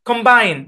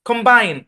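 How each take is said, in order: No difference in how they are said.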